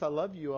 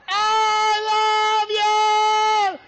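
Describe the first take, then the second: First: It is said at a normal, quiet volume. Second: It is shouted as loudly as possible.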